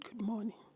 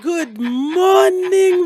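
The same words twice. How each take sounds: First: It is said calmly and plainly. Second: It is said brightly and cheerfully.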